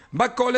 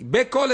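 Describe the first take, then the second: First: "bakol" said with an open a in the first syllable, ba-KOL. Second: "bekol" said with a short e in the first syllable, be-KOL; short "be" in "bekol", stress the end. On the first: Teacher contrasting bakol and bekol, open a sound. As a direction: open "ba" in "bakol", stress the end. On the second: Teacher contrasting bekol with bakol, short e sound. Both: Shown as a demonstration. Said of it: "diferencia entre bakol y bekol".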